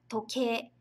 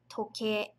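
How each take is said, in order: First: The word ends with a lengthened e sound. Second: The word ends with a lengthened e sound.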